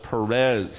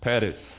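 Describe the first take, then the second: First: The name has a plain English pronunciation. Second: The name has a South Texas Spanish pronunciation.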